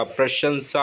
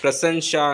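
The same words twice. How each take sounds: First: प्रशंसा said as "prashansa", sh before s; correct pronunciation. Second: प्रशंसा said as "prasansha", s and sh swapped; wrong pronunciation. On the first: Teacher correcting प्रशंसा, pronounced "prashansa". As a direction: put sh in the middle of प्रशंसा, s last. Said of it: "प्रशंसा होता है". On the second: Teacher showing the mistaken प्रशंसा, mispronounced as "prasansha". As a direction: put sh at the end of प्रशंसा. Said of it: "प्रशंसा नहीं होता". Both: Shown as a demonstration.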